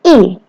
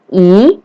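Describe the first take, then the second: First: The pitch falls sharply from high to low. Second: The pitch rises from mid to high. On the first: "Dan I nada keempat" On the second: "I nada kedua"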